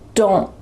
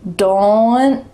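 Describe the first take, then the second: First: The final T is stopped with no release. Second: A small schwa sound follows the final T. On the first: The speaker calls it right. "My tongue is stopped at the top of my mouth" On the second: The speaker calls it wrong. "If we used that first rule, it would sound like don't, or something that's not very natural"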